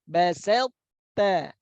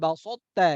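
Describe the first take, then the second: First: The s sound is light and thin. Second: The s sound is heavy and thick. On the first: The speaker calls it right. "Tapi tetap tipis" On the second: The speaker calls it wrong. "jangan dibaca tebal, jangan balsota"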